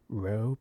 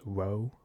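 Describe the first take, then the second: First: The word begins with a clear R sound. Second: The word begins with a W sound.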